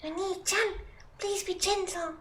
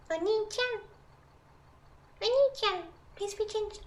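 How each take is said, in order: First: Much higher, soft cutesy plea; high-pitched voice. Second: Much higher, softer second try; even higher voice. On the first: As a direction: squeak it out like a shy anime girl. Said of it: "phrase in high-pitched voice". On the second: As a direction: push it higher, squeaky and small. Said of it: "How do you do high-pitched voice?". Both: Pretend.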